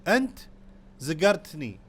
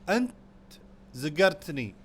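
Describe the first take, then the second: Both takes have the same delivery.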